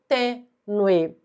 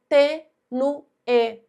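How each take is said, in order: First: The last vowels merge into one gliding syllable. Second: The last vowels are split into separate syllables. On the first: "e não" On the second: "Eventualmente, nós podemos pronunciar"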